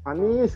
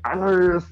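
First: The name is said calmly and plainly. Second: The name is said loudly, like a roar. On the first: This is how the speaker normally says it. "kalau gue sih tendensinya tuh ngomongnya Anis gitu" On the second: This imitates how the other person says it, like caps lock. "kayak ada raungan itunya itu loh"

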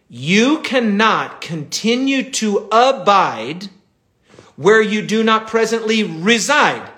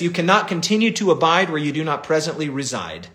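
First: It is said slowly and deliberately. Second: It is said at a normal speed.

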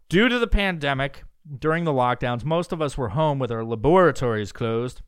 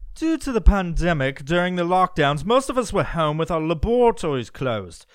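First: It is read in the speaker's normal accent. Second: It is read in a British accent.

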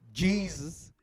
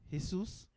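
First: The name is said the white people's way. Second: The name is not said the white people's way.

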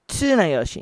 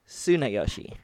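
First: The name begins with a ts sound. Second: The name begins with a plain s sound. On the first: The speaker calls it right. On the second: The speaker calls it wrong.

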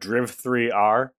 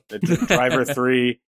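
First: It is read as 'Driv', 'three', 'R'. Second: It is read as 'Driver', 'three'. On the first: The speaker calls it wrong. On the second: The speaker calls it right.

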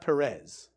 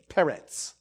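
First: The name ends with a plain z sound. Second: The name ends with a ts sound. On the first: The speaker calls it wrong. "It's not Perez" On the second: The speaker calls it right. "like with a T-Z at the end"

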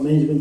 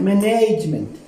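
First: The word is said in the speaker's usual accent. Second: The word is said exactly as it is spelled. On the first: This is how the speaker's own group says it. "They don't talk about management" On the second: This is how the other group says it. "they have been taught to pronounce it as you see it"

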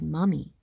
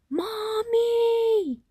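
First: It is said softly. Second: It is yelled as loud as possible.

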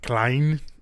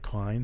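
First: The name is said in a heavy Austrian-German accent. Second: The name is said in a plain American accent. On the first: The speaker calls it wrong. "it's almost like Schwarzenegger-ish" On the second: The speaker calls it right. "if you say it like Klein, sounds fine"

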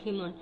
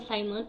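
First: The name is said with a Spanish pronunciation. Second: The name is said with an English pronunciation. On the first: "la pronunciación de Simón en español" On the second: "perdón si le digo Simon"

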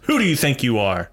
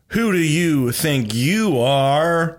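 First: It is said like an exclamation. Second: It is said like a question.

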